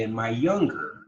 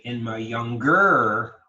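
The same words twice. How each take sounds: First: Put-on "younger" as YOUNG-ger, first syllable stressed; natural stress. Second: Put-on "younger" as young-GER, last syllable loud and drawn out; wrong-syllable stress. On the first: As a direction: stress the start of "younger", let the end fall. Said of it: "No, we say". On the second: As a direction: slowly punch the end of "younger". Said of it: "We don't say". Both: Shown as a demonstration.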